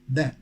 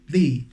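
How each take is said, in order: First: It is the pronunciation used before consonant sounds. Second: It is the pronunciation used before vowel sounds. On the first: "if the word that comes after the starts with a consonant sound, then we pronounce it the" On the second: "If the word that comes after the starts with a vowel sound, then we pronounce it the"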